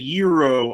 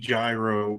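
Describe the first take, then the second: First: Said with an exaggerated, foreign-sounding pronunciation. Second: Said the way English spelling would suggest. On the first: The speaker is trying too hard to sound correct. "I was putting too much stank on it and trying too hard to to like pronounce it correctly" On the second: It follows ordinary English reading habits. "phonetically, based on what I know about the English language, it would be gyro"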